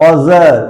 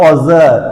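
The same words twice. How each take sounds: No difference in how they are said.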